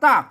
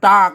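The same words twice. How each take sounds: First: The word is said with a falling tone. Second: The word is said with a low tone. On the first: "เสียงโทน่ะ" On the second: "เสียงเอกนะ"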